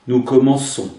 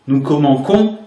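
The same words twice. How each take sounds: First: The c is pronounced as an s sound. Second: The c is pronounced as a k sound. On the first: The speaker calls it right. "mais une cédille au C" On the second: The speaker calls it wrong. "Le C suivi d'un O serait prononcé co. ... ce n'est pas possible"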